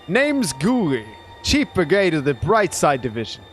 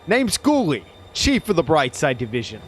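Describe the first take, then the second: First: The voice sounds hesitant and unsure. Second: The voice sounds bold and confident.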